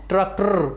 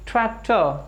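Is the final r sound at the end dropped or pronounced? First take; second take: pronounced; dropped. First: The final r sound is clearly pronounced. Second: The final r becomes a short schwa sound. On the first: The speaker calls it wrong. "Not ट्रैक्टर" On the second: The speaker calls it right. "जब भी रे sound last में आए तो pronounce नहीं होती"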